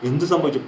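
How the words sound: It is said in an anxious, alarmed tone. The speaker calls it right. "പരിഭ്രമമുണ്ട്"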